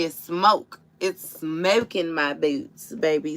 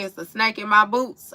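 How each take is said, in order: First: "smoke" drawn out slowly, clear long o; the right words, slow and deliberate: "smoke in my boots"; correct lyric. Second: "snake" said with a long a, as in snake; the misheard version, "snake in my boots"; misheard lyric. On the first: Correcting him, "smoke" said slowly and clearly. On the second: Retelling what he sang, "snake" instead of "smoke". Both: Shown as a demonstration. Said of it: "I wanted to say".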